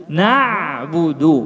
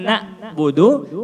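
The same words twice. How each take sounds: First: "na'budu" with a long voiced ain after na; flowing ain. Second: "na'budu" broken by a glottal stop after na; cut-off ain. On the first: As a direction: let the throat sound flow in na'budu. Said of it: "suara mengalir". (na'budu dengan ain mengalir) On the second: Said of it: "Bukan na'budu". (na'budu dengan suara terputus) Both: Shown as a demonstration.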